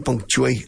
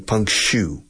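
First: The middle sounds like 'chew'. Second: The middle sounds like 'shoe'. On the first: "The British say punctuate. I'm sure the British say chew, like chewing gum" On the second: "The Americans say punctue. Like zapato, shoe"

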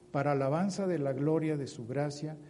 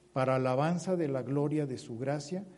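The two takes are said the same way.

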